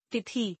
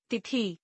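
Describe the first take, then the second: First: Said in the usual way. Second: तिथि ending on long ee, "tithee"; mispronounced. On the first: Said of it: "शुद्ध". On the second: Shown as a demonstration. Teacher showing an i error, mispronounced with long final ee. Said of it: "अशुद्ध".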